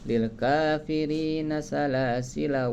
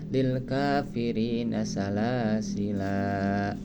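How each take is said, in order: First: The final vowel of salasila is short. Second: The final vowel of salasila is long. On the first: The reading continues without stopping. "Itu bila dibaca wasol dipendekkan" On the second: The reading stops at this word. "bila mana dibaca waqaf itu dibacanya panjang"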